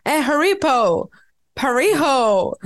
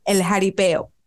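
First: Butcher "Jaripeo" as "Jaripo", then "Parijo", laughing; mangled name. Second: "El Jaripeo" said cleanly with Spanish h-like j; correct name. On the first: Retold or imitated. In-laws mispronouncing restaurant name, slow garbled "Parijo". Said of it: "duraron media hora tratando de decir el nombre". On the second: Shown as a demonstration. Naming the restaurant correctly, plain "El Jaripeo". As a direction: say "Jaripeo" properly. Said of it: "Se llama".

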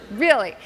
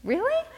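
First: Deadpan falling "really"; unimpressed "really", pitch dropping at the end; dry response. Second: High-pitched rising "really?"; squeaked questioning "really?"; incredulous question. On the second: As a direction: ask "really?" with the pitch leaping up. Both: Retold or imitated. Husband's answer, two contrasting takes.

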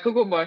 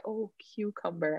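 First: "Cucumber" said "coo-coom-bo"; Jamaican pronunciation. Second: Softer "cucumber" as "kyoo-cum-ber"; standard American pronunciation. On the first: Customer ordering at Subway, Jamaican pronunciation. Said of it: "I got to the cucumber". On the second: Customer finally understood at Subway, American pronunciation. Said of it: "She asked me, like, ten times". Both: Retold or imitated.

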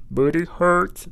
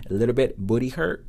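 First: "booty hurt" retried higher and more forcefully; accented retry. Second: "booty hurt" said in an accented first try; accented attempt. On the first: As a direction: push out "booty hurt" with raised pitch. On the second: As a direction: try "booty hurt" at usual pitch, testing the words. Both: Real, not acted. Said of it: "Sorry for my accent".

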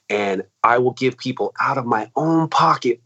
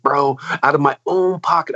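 First: Said in the usual way. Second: Insisting he pays bands himself, stressing "own". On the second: Real, not acted. Repeats a phrase for emphasis.

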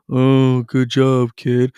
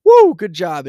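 First: Flat, half-hearted "good job" with no pitch lift; bored parent going through the motions, louder but not lively; distracted zombie praise. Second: High, loud "Woo, good job"; excited cheer. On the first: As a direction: praise your kid while glued to your phone. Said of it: "blindly watching like a zombie". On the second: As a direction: cheer your kid on with real energy. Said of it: "be like". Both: Shown as a demonstration.

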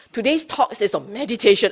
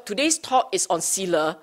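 First: Brighter and quicker, selling it; lightly hyped-up event notice; mock eager announcement. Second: Said in the usual way. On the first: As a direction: announce it like a crowd-pleaser. Mock announcement that draws a crowd.

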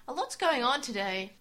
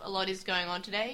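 First: Lightly voiced mum, a bit brighter; mum's voice. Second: Said in the usual way. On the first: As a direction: quote mum with mild lift. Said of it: "Taichi's mum says".

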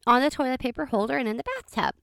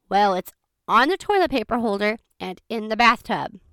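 First: Said in the usual way. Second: Measured, deliberate repeat stressing "toilet paper holder" and "bathtub"; pointed repetition. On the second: Retold or imitated. Repeats it after being doubted.

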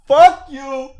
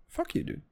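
First: Sudden loud, high yell; mock angry outburst. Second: Very soft, half-voiced repeat; muted aside. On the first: Defending his wandering off the subject, mock angry shout. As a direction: burst out at full volume as a joke. Mock snapping back at criticism. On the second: Repeating the retort to himself, hushed and playful. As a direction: say it under the breath, barely voiced. Repeats it under his breath.

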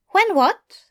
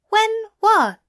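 First: High, curious Aziraphale voice; gently probing question, voiced high; Aziraphale asking. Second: Higher still, more insistent; insistent repeated question, pitched high; Aziraphale asking again. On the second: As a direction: lean in and press harder. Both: A narrator's reading.

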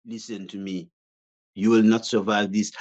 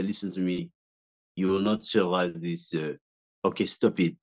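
First: Fussy chef trying to sound menacing; delicate fussy pastry chef. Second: Low, menacing gangster voice; a hint of a tough gangster; intimidating French gangster. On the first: Retold or imitated. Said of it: "I sound like a pastry chef". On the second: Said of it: "I had to speak like this and be very intimidating".

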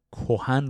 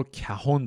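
First: Said in the usual way. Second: Put-on کهن said as "kahon", old style; old Persian "ka-HON" for کهن; archaic pronunciation. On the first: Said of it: "یک نکته هم دربارهٔ تلفظ". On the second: Shown as a demonstration. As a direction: say کهن with a first, then o. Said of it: "این واژگان تلفظ قدیمیشون".

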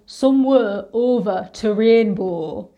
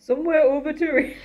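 First: Slow Northern English buzz phrase, "rainbow" with flat northern vowels; Northern English accent. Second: Attempted Northern accent. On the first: Drama school grad demonstrating Northern English accent, slowly. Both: Shown as a demonstration. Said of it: "getting into a British Northern accent".

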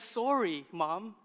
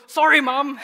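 First: Put-on softer, unforced child's sorry; imitated sincere apology. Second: Loud, higher mock-grudging child's sorry; imitated grudging apology. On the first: Dad retelling daughter's bedtime apology to mother, sincere and gentle. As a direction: say a simple, meant apology, lightly as a child. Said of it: "she actually said". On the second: Dad imitating daughter made to apologize, grudging and loud. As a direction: push out an apology you don't mean, as a child.

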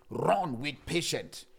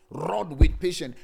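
First: Said in the usual way. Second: Slow, loud, with each word hit; emphatic loud repeat. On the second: Acted. Pastor pressing the phrase on his congregation, loud. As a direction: punch it out to the church.

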